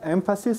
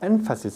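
First: The n is made with lower lip and teeth. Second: The n is made with the tongue tip. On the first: "Muchos estudiantes coreanos pronuncian no como énfasis" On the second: "sino como énfasis"

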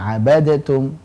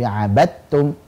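First: The d is released with a small bounce. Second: The d merges fully into the following t. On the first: The speaker calls it wrong. "tidak ada lagi pantulan abadtum" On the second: The speaker calls it right. "tapi abadtum"

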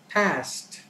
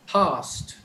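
First: The word is said in an American accent. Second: The word is said in a British accent. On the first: "an American would pronounce it as past" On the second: "a Britisher would say past as past"

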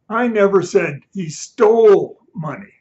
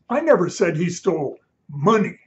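First: The word 'stole' is stressed. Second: The word 'money' is stressed.

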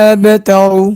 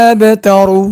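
Both takes have the same delivery.

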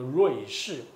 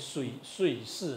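First: The first syllable is said as 'rui'. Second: The first syllable is said as 'sui'. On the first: This is the current everyday reading. "可是我们现在都念作瑞士" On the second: This follows the original transliteration sound. "那你是不是应该把它念碎士呢"

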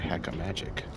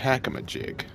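First: The word ends with a 'magic' sound. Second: The word ends with a clear 'jig' sound. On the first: The speaker calls it wrong. "not a hack-a-magic" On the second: The speaker calls it right. "It's a hack-a-ma-jig"

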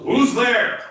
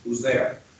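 First: It is bellowed loudly and confidently. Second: It is asked flatly as a routine question.

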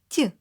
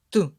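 First: The t sound is soft and palatalized. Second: The t sound is hard, not palatalized. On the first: "А у маленького молоточка м'який настрій" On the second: "У великого молоточка суворий настрій"

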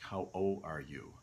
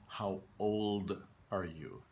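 First: The D in old is soft and weak. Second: The D in old is hard and clear. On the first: The speaker calls it wrong. "They pronounce it as a soft D" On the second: The speaker calls it right. "So we really want to hear the D"

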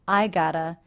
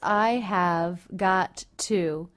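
First: The have is dropped, and got to becomes gotta. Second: Every word is pronounced fully and separately. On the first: "or even simply I gotta" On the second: "the words I have got to"

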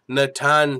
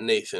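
First: The name is said with a Brazilian pronunciation. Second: The name is said with an English pronunciation. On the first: The speaker calls it right. "He's Brazilian" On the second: The speaker calls it wrong. "It's not Nathan. I've been saying it wrong the whole time"

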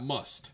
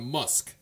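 First: The name ends with a t sound. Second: The name ends with a k sound. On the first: The speaker calls it wrong. "not Must" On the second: The speaker calls it right. "it's Elon Musk"

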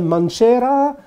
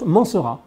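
First: The name is pronounced the Italian way. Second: The name is pronounced the French way. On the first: "in Italy you can Mancera" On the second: "In French, you pronounce Mancera"

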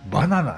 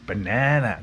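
First: It is said with flat Japanese katakana sounds. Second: It is said with English vowels and stress. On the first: The speaker calls it wrong. "バナナって言ったら通じないですね" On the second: The speaker calls it right. "バナナとか言わないと通じないし"

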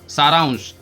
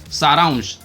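First: The word has an 'n' sound before 'sh'. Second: The word has an 'n' sound before 'sh'.

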